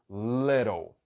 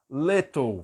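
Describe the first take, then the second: First: The middle T is a quick flap, like R. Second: The middle T is a clear, crisp T sound. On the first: "como é inglês americano, então eu digo little" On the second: "Vai pronunciar o T com o som de T"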